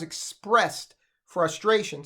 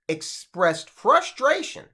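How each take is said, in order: First: Said in the usual way. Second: Slow "expressed", then "frustration" punched; deliberate, slowed emphasis on "frustration"; stress on frustration. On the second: Real, not acted. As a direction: stretch out "expressed frustration", leaning hard on "frustration". Repeats the phrase for emphasis.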